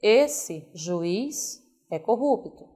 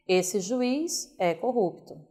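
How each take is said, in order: First: Slow, with breaks before and after juiz; pauses around juiz. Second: Esse juiz é corrupto in one flow; no pauses. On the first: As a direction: juiz set off between two commas. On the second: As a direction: run Esse juiz together as one phrase. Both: Shown as a demonstration. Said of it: "Pode criar vilões".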